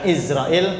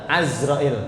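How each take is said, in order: First: The name begins with an 'i' vowel. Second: The name begins with an 'a' vowel. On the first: "Boleh dibaca Izrail" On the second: "boleh dibaca Azrail ya"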